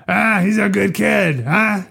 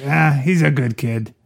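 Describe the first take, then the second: First: High-pitched hammed-up tough cop; pointed mock challenge. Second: Lightly waved-off line in the speaker's usual pitch; mildly dismissive. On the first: Cop saying it to Sollozzo instead, mock challenging. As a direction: push it up high and end on a questioning huh. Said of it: "different if he had said to Sollozzo". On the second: Acted. Cop letting it go this time, mildly dismissive. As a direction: brush it off mildly, imitating the cop. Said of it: "like a dismissive kind of like".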